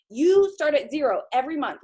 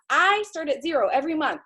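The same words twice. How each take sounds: First: "You" leaned on, rest falling; stress on YOU. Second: "I" leaned on, rest falling; stress on I. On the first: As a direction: hit the word "You" to point at the listener. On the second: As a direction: hit the word "I", not the others. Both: Acted. Listing who starts at zero.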